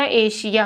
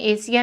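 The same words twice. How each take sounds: First: The middle consonant is an 'sh' sound. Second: The middle consonant is a plain 's' sound. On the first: The speaker calls it right. "एशिया होता है" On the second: The speaker calls it wrong. "एशिया नहीं होता"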